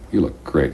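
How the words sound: It is said with warm, lingering, suggestive intonation. The speaker really finds her attractive.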